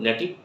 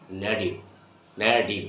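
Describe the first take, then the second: First: Said in the usual way. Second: "নেটিভ" said low, as "nediv"; t softened to d. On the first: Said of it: "রং ওয়ার্ডস হলো নেটিভ". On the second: Shown as a demonstration. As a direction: turn the t of "নেটিভ" into a d. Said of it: "টি এর উচ্চারণটা হয়ে যাবে ড". ("নেটিভ"-এর ট-কে ড করে "নেডিভ")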